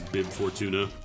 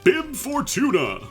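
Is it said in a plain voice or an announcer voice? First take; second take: plain voice; announcer voice. First: It is said in his ordinary voice. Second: It is said in a Smash Brothers announcer voice.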